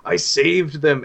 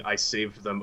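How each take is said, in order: First: High, loud, raving cry; manic madman. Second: Said in the usual way. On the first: Acted. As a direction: shout it like a crazed man proud of his deed. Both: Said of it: "And he keeps repeating".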